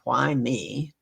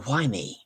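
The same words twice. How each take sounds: First: It sounds complaining and self-pitying. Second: It sounds grateful and full of wonder. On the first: The speaker feels unfairly burdened. The speaker calls it wrong. "instead of saying" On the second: The speaker marvels at the gifts received. The speaker calls it right. "You go, why me? And start looking at all the things, the gifts that you've been given"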